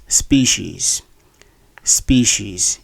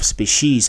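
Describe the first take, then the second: First: Species as SPEE-sheez, first syllable stressed; correct pronunciation. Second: Species as spih-SHEEZ, stress on the end; mispronunciation. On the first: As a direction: say species with two long E vowels, stress first. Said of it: "word is actually pronounced as". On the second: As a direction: say species wrongly with short first vowel. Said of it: "many of you have been". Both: Shown as a demonstration.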